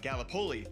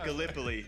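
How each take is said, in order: First: The name is said in an Iowa-style pronunciation. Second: The name is said in its standard pronunciation. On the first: The speaker calls it wrong. "being from Iowa, I said uh, Gallipoli" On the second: The speaker calls it right. "It is pronounced Gallipoli"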